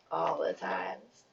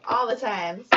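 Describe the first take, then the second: First: Much lower and slowed right down; low slow echo. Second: Punchy, louder call of the answer; emphatic repeat. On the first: Reader echoing her answer to herself, low and slow. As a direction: drop it low and drag it out. Repeating own joke answer. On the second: Reader answering her own question, emphatic and loud. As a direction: throw the answer out with a grin. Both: Pretend.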